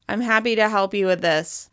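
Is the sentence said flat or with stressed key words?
flat. It is said in a flat monotone without stress. The speaker calls it wrong. "With a more monotone voice without much stress"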